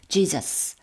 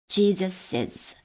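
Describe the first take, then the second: First: The name ends without an extra syllable. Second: An extra 'iz' syllable follows the name. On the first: "그냥 Jesus 라고만 발음해도 됩니다" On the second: "Jesus is 이렇게 Jesus is 발음해도 되고요"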